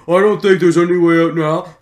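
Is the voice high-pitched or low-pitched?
low-pitched. It is said in a lower, more strained voice. The speaker calls it wrong. "the whole game, when she's constantly there, it's gonna get a little ugh"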